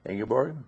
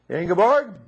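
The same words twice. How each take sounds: First: The name is said at a normal volume. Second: The name is said with a raised voice.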